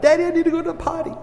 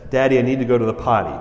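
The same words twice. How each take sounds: First: It is said in a worried way. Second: It is said in a calm, plain way.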